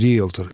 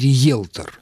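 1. Второй гласный — простой звук «е». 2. Второй гласный — звук «йе». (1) "с таким же произношением «риэлтор»" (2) "не «риэлтор»"

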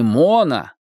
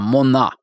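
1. Ударение на первом слоге. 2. Ударение на втором слоге. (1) "теперь она не Мона" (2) "тетя изменила ударение в своем имени"

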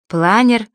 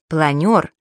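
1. Слово произносится с гласным 'e'. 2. Слово произносится с гласным 'yo'. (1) "таких слов-уродцев" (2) "правильно"

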